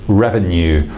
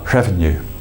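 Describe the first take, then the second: First: The R is clear and firm. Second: The R is soft and breathy. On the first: "a very um, clear R, R, R sound" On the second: "a softer R sound"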